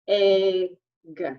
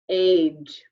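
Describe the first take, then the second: First: The word ends in a hard g sound. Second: The word ends in a soft j sound. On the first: The speaker calls it wrong. "Let's pretend that this G has the G sound" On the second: The speaker calls it right. "flip this sound from the G sound to the J sound"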